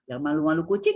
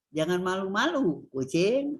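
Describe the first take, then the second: First: "jangan malu-malu kucing" quickly run together, no pause; intonasi frasa. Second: "jangan malu-malu" falls, a break, then "kucing" rises; intonasi kalimat. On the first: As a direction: keep "malu-malu kucing" in one breath as a set phrase. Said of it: "kan frase". ("jangan malu-malu kucing" cepat menyatu tanpa jeda) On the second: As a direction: set "kucing" apart as the one being spoken to. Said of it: "Tapi kalau". ("jangan malu-malu", jeda, lalu "kucing" sebagai sapaan) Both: Shown as a demonstration.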